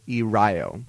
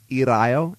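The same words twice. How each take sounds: First: The r is a smooth English-style r. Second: The r is a single quick tap. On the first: The speaker calls it wrong. "and not irayo" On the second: The speaker calls it right. "it's like a rolled R only with one roll"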